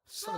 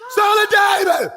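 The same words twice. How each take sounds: First: High, thin cry as if from far off; distant beggar's cry. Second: High, loud preacher's shout of the name; shouted cry. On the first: Blind beggar Bartimaeus calling to Jesus from a distance, high faint cry. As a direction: call out from the roadside, far away. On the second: Preacher crying out Son of David to the congregation, full loud shout. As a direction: cry it out like a desperate plea. Crowd cry for blind beggar. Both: Acted.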